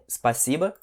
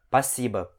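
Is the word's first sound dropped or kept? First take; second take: kept; dropped. First: The word is said in full from the start. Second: The word's opening sound is dropped.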